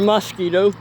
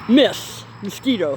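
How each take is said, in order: First: The first syllable sounds like 'mos'. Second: The first syllable sounds like 'miss'. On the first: This is the standard way to say it. The speaker calls it right. "instead of" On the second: This is how it is said regionally. The speaker calls it wrong. "in Indiana, mosquito gets pronounced"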